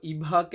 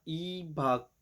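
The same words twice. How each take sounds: First: इभाक with an aspirated bh, the wrong way; wrong pronunciation. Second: ईभाक with the b gliding straight into the a; correct pronunciation. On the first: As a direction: say इभाक with a breathy bh, as a mistake. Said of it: "इसको इभाक नहीं बोलना". (गलत उच्चारण, इभाक में भ पर ज़ोर) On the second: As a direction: say ईभाक smoothly, the b running into the a. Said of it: "बी जो है ना वो आ के साथ चला जाएगा". (सही उच्चारण, ईभाक में ब आ के साथ मिलाकर) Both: Shown as a demonstration.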